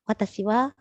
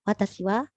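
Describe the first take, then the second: No difference in how they are said.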